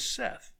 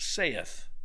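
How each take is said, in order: First: The vowel sounds like the vowel in 'set'. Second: The vowel sounds like the vowel in 'say'. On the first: The speaker calls it right. "The correct English pronunciation is Seth, S-E-T-H" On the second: The speaker calls it wrong. "it is not pronounced saith"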